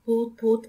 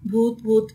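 First: A touch of a frightened shout; wife after falling onto him, mild scared cry; mild scream. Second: Louder frightened cry of ghost; wife bursting out of the washroom, scared scream. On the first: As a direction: cry भूत भूत with little force. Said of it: "वो चिल्लाई थी". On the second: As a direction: scream भूत भूत as she runs out. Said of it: "चिल्लाती हुई बाहर भागी". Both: A narrator's reading.

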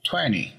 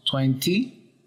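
First: "twenty" as twenny, no T; dropped T. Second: "twenty" with a clear T. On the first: Teacher shows relaxed twenty without the T. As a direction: drop the T in "twenty". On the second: Teacher first gives full twenty with the T. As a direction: say every sound of "twenty". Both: Shown as a demonstration. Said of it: "Eliminamos el sonido de la T".

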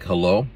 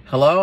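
First: Curt, guarded hello; unfriendly hello. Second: Said in the usual way. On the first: Retold or imitated. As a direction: answer coldly, not friendly. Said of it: "I'm not in my friendly voice mode". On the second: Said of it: "not in my friendly voice mode".

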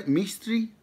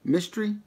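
First: "Mistry" with a drawn-out "ee" in the first syllable; attempted ethnic pronunciation. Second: Said in the usual way. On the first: Shown as a demonstration. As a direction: say "Mistry" as "MEE-stree", questioning. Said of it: "trying to be super ethnic with that". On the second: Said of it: "Did I say that right?".

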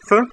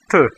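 First: Said in the usual way. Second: "t" with tongue tip pressed to upper teeth; soft Russian t. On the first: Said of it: "like you want to pronounce". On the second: Shown as a demonstration. Teacher drilling learners on "t", soft and dental. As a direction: make "t" dental, less explosive than English. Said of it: "press the tip of your tongue".

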